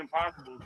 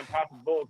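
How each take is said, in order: First: The final syllable is said plainly and reduced. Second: The final syllable 'bulls' is leaned on strongly. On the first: This is the name as it is written. "I know that it's meant to be the Impossibles" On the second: This is how fans actually say the name. "lean into the bull part"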